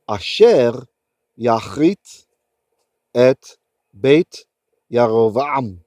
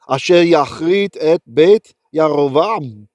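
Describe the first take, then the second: First: It is read slowly, phrase by phrase. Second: It is read at a normal, fluent speed. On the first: "read without any auditory cues" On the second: "another time at a normal speed"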